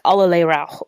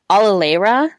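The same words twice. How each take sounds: First: It is said with a raspy German accent. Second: It is said in an American English accent.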